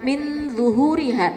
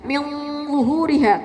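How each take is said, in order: First: The n sounds fairly clear before the z. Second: The n is partly hidden, blending toward the z. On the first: The speaker calls it wrong. "jangan min zuhuriha" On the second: The speaker calls it right. "tapi min zuhuriha"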